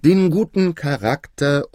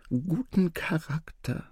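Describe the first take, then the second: First: Louder, slow, declarative delivery; full-voiced, measured royal statement; prompted repeat out loud. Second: High, soft, slow stage whisper; feed the word discreetly to someone; hushed, high-pitched prompting. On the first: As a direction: take up the prompt and proclaim it. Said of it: "sagte der König nun". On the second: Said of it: "flüsterte der Wesir". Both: A narrator's reading.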